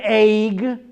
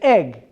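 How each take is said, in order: First: The vowel is drawn out longer. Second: The vowel is clipped very short. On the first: The speaker calls it wrong. "It's not an egg" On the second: The speaker calls it right. "So it's real short"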